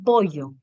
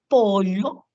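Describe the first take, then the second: First: The double l is a plain y-sound. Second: The double l is a lateral 'ly' sound. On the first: The speaker calls it wrong. "pero no sé por qué dicen pollo" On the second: The speaker calls it right. "es con elle"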